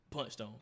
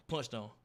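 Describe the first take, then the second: No difference in how they are said.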